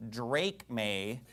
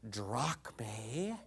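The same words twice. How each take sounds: First: "drachme" as DRAKE-may, with a long A; slow, softer DRAKE-may for "drachme"; wrong pronunciation. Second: "drachme" as DRAHK-may, low and quiet; mock scholarly "drachme", AH then AY, rising; soft, low DRAHK-may in derided Erasmian style; Erasmian pronunciation. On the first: Retold or imitated. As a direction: misread "drachme" to rhyme with "break day". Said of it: "you're never gonna get drachme". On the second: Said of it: "in their stupid Erasmian Plato and cowboy boots pronunciation".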